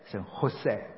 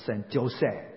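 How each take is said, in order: First: Jose begins with an H sound. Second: Jose begins with an English-style J sound. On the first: The speaker calls it right. "西班牙文的J 是练成H 的音" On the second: The speaker calls it wrong. "不是圣Jose"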